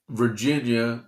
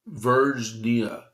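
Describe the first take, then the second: First: Said in the usual way. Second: "Virginia" said slowly as "Virgnia", no i; "Virginia" spelled out slowly as the typo; misspelled pronunciation. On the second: Shown as a demonstration. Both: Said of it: "is how they spelt it".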